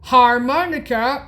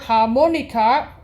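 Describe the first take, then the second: First: The word is pronounced the English way. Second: The word is pronounced the German way.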